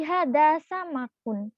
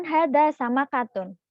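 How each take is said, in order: First: "sama kun" ending in -kun, no "ta" syllable; masculine Arabic form. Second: "sama katun" with the added "ta" syllable; feminine Arabic form. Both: Shown as a demonstration. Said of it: "bukan hada sama katun".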